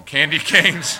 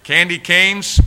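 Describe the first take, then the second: First: Laughs out the words candy canes; giggling through Candy canes, louder; laughing. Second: Candy canes called out high and loud; triumphant, louder Candy canes; loud exclaim. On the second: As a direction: proclaim Candy canes like a grand find. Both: Retold or imitated. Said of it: "I'm going like this".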